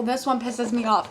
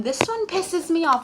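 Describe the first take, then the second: First: Said in the usual way. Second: Higher, louder self-parody; mocking self-quote. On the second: Vlogger parodying their own repeated complaint, self-mocking. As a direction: mimic your own repeated complaint in a raised voice. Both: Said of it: "I know I keep saying".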